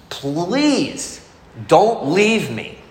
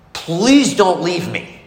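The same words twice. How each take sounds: First: Slow, higher plea of "Please don't leave me" with a pause after "Please"; a lingering, childlike plea of "Please don't leave me"; pleading. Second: Slow, higher plea of "Please don't leave me"; beg, stretching out "Please"; a grown man's childlike plea of "Please don't leave me"; pleading. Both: Retold or imitated. His fear of being left.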